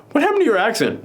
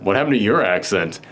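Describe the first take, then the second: First: Higher, surprised quoted question; first take: lift "What happened to your accent?" up high; mock surprise, raised pitch; quoting, pitched up. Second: Lower, deadpan repeat of the line; second take: drop "What happened to your accent?" low and flat; low deadpan echo; repeated, pitched down. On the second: Retold or imitated. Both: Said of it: "she then goes".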